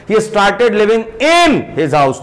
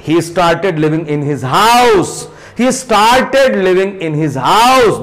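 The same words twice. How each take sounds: First: In stressed before his house; slow demo of a wrong stress on in; wrongly stressed in. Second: In slipped through lightly, stress on house; slow model read with weak in; light unstressed in. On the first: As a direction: put weight on in, the wrong way. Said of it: "this is wrong pronunciation". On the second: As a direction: skim over in, land on house. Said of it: "इनको कितना slightly बोलकर निकल जा रहे हैं". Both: Shown as a demonstration.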